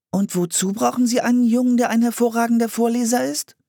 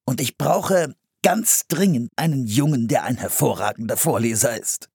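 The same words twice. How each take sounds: First: Put-on very high little-girl voice; puzzled girl questioning, pitched way up; curious girl. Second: Eager man pressing his request; higher pitch at first, then settling; urgent appeal. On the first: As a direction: ask in a high, inquisitive child's voice. Fragte Anne den Mann. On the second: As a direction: lean on the urgency, enthusiastically. Man urgently seeks a young reader. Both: A narrator's reading.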